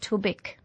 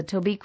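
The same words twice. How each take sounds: First: Tobic with a short "i", to-bick; corrected pronunciation. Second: Tobique said with a long "ee", to-beek; host's own pronunciation. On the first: Host relaying a listener's correction, Tobic as to-bick. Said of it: "is usually pronounced Tobic". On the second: Host reading back a tune name, Tobique as to-beek. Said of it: "which you tell me is usually pronounced". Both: Shown as a demonstration.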